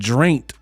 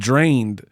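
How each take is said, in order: First: The word ends with a t sound. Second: The word ends with a d sound. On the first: "it sounded like he just said drained" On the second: "instead of drained"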